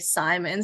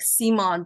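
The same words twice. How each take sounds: First: The name is said the North American English way. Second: The name is said the Swedish way.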